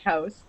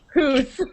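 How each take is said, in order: First: The vowel sounds like 'ow'. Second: The vowel sounds like 'oo'. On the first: This is how people really speak. The speaker calls it right. "we say about and house" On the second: This is a stereotype of how people speak. The speaker calls it wrong. "we do not say hoose"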